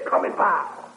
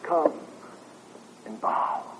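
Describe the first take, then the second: First: It is said in a harsh, angry tone. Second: It is said in a gentle, gracious tone. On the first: It is a stern demand from an angry ruler. The speaker calls it wrong. "God in his righteous anger against men in their rebellion and impenitence saying" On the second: It is a loving invitation from a gracious ruler. The speaker calls it right. "The command is suffused with grace"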